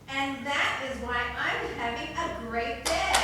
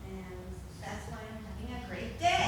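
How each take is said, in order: First: It is said loudly and convincingly. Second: It is said quietly and unconvincingly.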